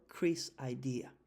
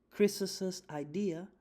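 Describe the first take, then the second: First: Short "Chris'" with no extra syllable; Chris', one s. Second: "Chris's" said slowly as kris-es, higher and louder; slow, lifted teacher demo of "Chris's" as kris-es; Chris's, extra syllable. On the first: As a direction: contrast take, "Chris'" as a single kris. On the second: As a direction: draw out "Chris's" with the invented es syllable. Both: Shown as a demonstration. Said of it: "Esa es la forma en cómo se pronunciaría".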